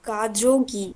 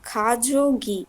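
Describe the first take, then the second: First: The word begins with a voiced g sound. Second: The word begins with a k sound. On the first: The speaker calls it wrong. "না, গিয়ক প্রথমে বসলে কি হবে? খ।" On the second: The speaker calls it right. "তাহলে সেটা হবে খাজোগি।"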